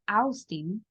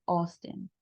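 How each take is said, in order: First: "Austin" read as "aus-tin" with a full a-u; "Austin" said letter by letter as "aus-tin"; wrong spelling-based reading. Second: "Austin" with au said as "o", like "osten"; correct pronunciation. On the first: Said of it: "en lugar de decir Austin". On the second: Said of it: "yo voy a decir Austin". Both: Shown as a demonstration.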